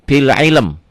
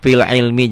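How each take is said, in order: First: The phrase ends on the consonant m. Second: The phrase ends on an added i vowel. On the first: The speaker calls it right. "Bagusnya fil ilm ya, waqaf isyarah" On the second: The speaker calls it wrong. "fil ilmi juga boleh"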